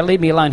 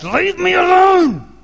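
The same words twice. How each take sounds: First: Raised-voice report of a yell; toned-down retold yell. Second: High, drawn-out full-throated shout; desperate bellow to be left alone; loud yell. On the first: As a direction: say it firmly and louder, short of shouting. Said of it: "every time I'd yell and go". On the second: Retold or imitated. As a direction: yell it out slowly at the top of your voice. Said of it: "'cause I'd say out loud".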